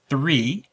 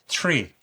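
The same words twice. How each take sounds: First: The word starts with a soft th sound. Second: The word starts with a sharp t sound.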